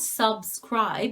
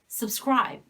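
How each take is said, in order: First: The first vowel is a full, clear vowel. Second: The first vowel is a reduced schwa. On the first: The speaker calls it wrong. "it's not subscribe" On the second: The speaker calls it right. "it's sub, sub, subscribe"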